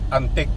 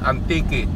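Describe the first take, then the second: First: The word is said with two syllables. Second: The word is said with three syllables. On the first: The speaker calls it wrong. "not antique" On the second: The speaker calls it right. "it is pronounced Antique, three syllable"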